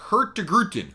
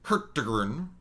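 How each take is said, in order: First: The name ends with a longer 'gruten' sound. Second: The name ends with a short 'gern' sound. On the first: The speaker calls it right. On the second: The speaker calls it wrong.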